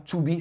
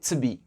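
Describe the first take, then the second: First: The word 'to' is said fully and clearly. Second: The word 'to' is shortened and reduced. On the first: The speaker calls it wrong. "C'est pas" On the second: The speaker calls it right. "c'est super réduit"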